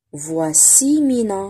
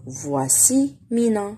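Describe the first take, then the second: First: Slow, syllable by syllable "Voici Mina"; slow reading model. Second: Slow, careful "Voici Mina" again for pupils; slow repeat. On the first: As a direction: read it out slowly for children. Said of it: "reading model for pupils". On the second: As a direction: model it slowly once more. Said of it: "repeat for pupils". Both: Shown as a demonstration.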